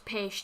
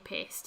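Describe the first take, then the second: First: The s is pronounced like sh. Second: The s is pronounced as plain s. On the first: This is the Hungarian pronunciation. "It's peshed" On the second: This is the American pronunciation. "Americans say pest"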